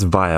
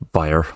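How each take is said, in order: First: It ends in a vowel without r. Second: It ends with an added r sound.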